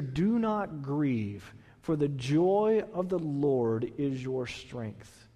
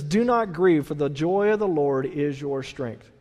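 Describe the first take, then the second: First: Slow, soft, drawn-out verse; slow tender reading. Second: Said in the usual way. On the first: Shown as a demonstration. Pastor repeating the verse softly to sufferers, slow and tender. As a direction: ease each word out gently. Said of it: "It says here". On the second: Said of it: "And it says".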